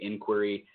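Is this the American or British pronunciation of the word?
American. The word has the American pronunciation. "we'd say inquiry"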